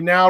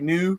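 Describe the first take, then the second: First: The vowel is the standard 'ow' sound. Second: The vowel is a Scottish 'oo' sound. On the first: "they don't say now really" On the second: "they say new"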